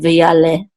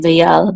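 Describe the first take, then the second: First: The word ends with a short e vowel. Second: The word ends on the l, with no vowel. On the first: The speaker calls it right. "we're going to pronounce this shava under it" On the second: The speaker calls it wrong. "It's not going to be vayal"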